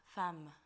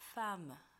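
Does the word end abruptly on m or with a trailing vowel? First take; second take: trailing vowel; trailing vowel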